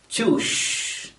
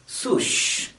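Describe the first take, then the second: First: The word begins with a ch sound. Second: The word begins with an s sound. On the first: "pronounce the word as choosh" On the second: "or at least sush instead of shoes"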